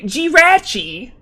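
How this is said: The name is said the British way.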